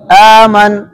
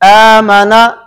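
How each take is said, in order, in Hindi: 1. शब्द व्यंजन "n" पर खत्म होता है। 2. शब्द अंत में एक स्वर पर खत्म होता है।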